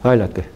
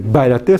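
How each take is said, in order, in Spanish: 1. La primera b es suave, semioclusiva. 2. La primera b es dura, con cierre completo. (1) "sino semi-oclusiva" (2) "En vez de decir bailate"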